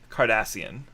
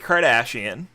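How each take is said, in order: First: It sounds like the alien species name Cardassian. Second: It sounds like the celebrity surname Kardashian. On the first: The speaker calls it right. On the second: The speaker calls it wrong.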